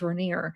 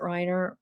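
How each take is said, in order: First: The name is said like 'ray-NEER'. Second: The name is said like 'RYE-ner'. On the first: This is how a school friend's name was said. "it was pronounced Rainier" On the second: This is how the family says their own name. "I know they pronounce it Reiner"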